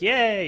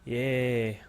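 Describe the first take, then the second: First: It sounds genuinely excited. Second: It sounds flat and sarcastic. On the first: The cheer is sincere. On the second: The cheer is not sincere.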